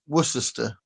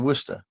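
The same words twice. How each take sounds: First: Every written syllable of the word is sounded. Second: The middle syllable is dropped from the word. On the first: This follows the spelling. "The way it's spelled is Worcester" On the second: This is how people actually say it. "you say Worcester"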